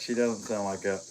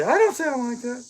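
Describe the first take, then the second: First: Said in the usual way. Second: High, put-on protest in the wife's voice; mock wife voice. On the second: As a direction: squeak out her objection as the wife. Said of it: "She'd say".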